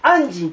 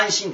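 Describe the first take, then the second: First: The middle consonant is a voiced 'j'. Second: The middle consonant is a voiceless 'sh'. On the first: This is the old reading still used in Buddhism. "昔は安心と濁ったんです。" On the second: This is the modern everyday reading. "今は安心ですね。"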